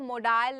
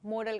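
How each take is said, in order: First: The second vowel is a long 'aa' sound. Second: The second vowel is a short, weak sound. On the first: The speaker calls it wrong. "इनको मोडाल नहीं कहते हैं" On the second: The speaker calls it right. "बस मॉडल कहते हैं"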